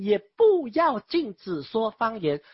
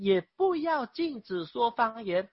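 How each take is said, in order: First: 也不要禁止说方言 read louder and slower, each word weighted; emphatic reading. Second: Said in the usual way. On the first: Shown as a demonstration. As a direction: hammer home the correct translation. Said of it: "这是正确的翻译". (加重语气慢慢强调) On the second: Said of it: "圣经明显说呢".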